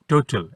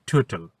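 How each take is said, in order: First: Said in the usual way. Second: "টোটাল" with a puff after the first t; aspirated T. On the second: Shown as a demonstration. Teacher models "টোটাল" for children, aspirated t. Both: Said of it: "এটার উচ্চারণ হবে".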